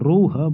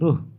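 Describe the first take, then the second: First: The vowel is long and said with force. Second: The vowel is short and light. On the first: The speaker calls it right. "जोर देकर बोला जा रहा है" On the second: The speaker calls it wrong. "ऐसा तो नहीं बोला जाता है"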